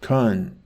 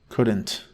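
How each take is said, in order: First: The word is clipped into one short syllable. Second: The word is said fully with both syllables. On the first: This is how the bullied boy spoke. "he said things like" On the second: This is how people normally say it. "not couldn't"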